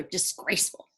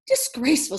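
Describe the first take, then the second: First: A breathy, whispered disgraceful; hushed cluck. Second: Louder disgraceful, firm falling tune; second hen agreeing with a knowing nod. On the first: Hen whispering to the other hen, hushed. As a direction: hen gossiping under her breath. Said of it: "clucked one hen to another". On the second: Second hen answering the first, knowing and firm. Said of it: "said the second hen with a knowing nod". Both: A narrator's reading.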